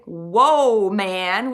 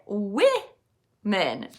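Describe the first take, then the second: First: The first vowel is not an i sound. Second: The first vowel is an i sound. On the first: The speaker calls it wrong. "We don't say" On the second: The speaker calls it right. "We say women. It sounds like an I"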